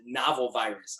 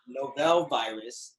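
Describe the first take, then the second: First: "novel" said as NAH-vul; broadcasters' pronunciation. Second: "novel" said as no-VEL; alternative pronunciation. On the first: Retold or imitated. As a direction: quote the radio's "novel", stressed on the first syllable. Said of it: "where they pronounced it". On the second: Shown as a demonstration. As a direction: stress the second syllable of "novel", like no-VEL. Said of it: "depending on how you wanna pronounce it".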